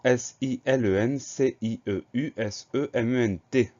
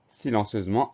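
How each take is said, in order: First: S I L E N C I E U S E M E N T, each letter named one at a time; spelled letter by letter. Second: Said in the usual way. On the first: Shown as a demonstration. Teacher spelling silencieusement for the class, letter by letter.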